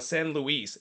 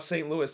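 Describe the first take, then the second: First: The name has a Spanish pronunciation. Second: The name has an English pronunciation. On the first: The speaker calls it wrong. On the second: The speaker calls it right.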